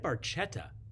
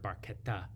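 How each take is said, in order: First: The word is pronounced the English way. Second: The word is pronounced the Italian way.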